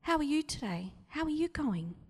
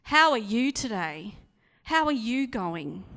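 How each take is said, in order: First: How are you today falling away lightly; a throwaway greeting; casual inflection. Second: How stressed loud, the question rising; a bright, pointed greeting; emphatic inflection. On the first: Preacher showing inflection to the congregation, casual fall. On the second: Preacher showing inflection to the congregation, loud rising. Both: Shown as a demonstration. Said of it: "same words but different inflections".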